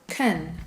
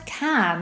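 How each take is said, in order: First: The vowel is a weak uh sound. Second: The vowel is a full, strong ah. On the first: "we replace that ah for uh" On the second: "has a strong ah sound in it"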